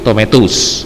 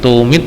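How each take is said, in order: First: The word is said in full, every syllable sounded. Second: The word is clipped, with its middle part dropped. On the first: The speaker calls it right. "tapi tomatus ya gitu" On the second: The speaker calls it wrong. "tomit salah"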